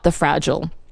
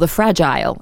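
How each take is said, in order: First: It is said in a non-Australian accent. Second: It is said in an Australian accent.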